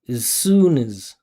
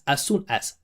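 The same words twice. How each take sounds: First: The vowels of 'as' are reduced and weak. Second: Each word is said with full, unreduced vowels. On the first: The speaker calls it right. "We make these function words into reductions" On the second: The speaker calls it wrong. "most of you will pronounce this and you'll say"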